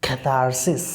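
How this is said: The r after the first vowel is pronounced. "When you follow American pronunciation, it will be catharsis"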